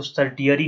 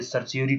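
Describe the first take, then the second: First: सर्टियरी with a hard T sound in the middle; mispronounced certiorari. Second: The T softened to S in सर्सियोरी; correct certiorari pronunciation. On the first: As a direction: say सर्टियरी the wrong way, with "ti" for "si". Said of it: "इसको सर्टियरी नहीं पढ़ते". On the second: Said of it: "सर्सियोरी पढ़ते हैं". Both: Shown as a demonstration.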